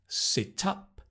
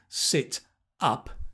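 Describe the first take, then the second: First: The final consonant links into the next vowel. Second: The two words are said separately. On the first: "So you can link" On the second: "Instead of sit up"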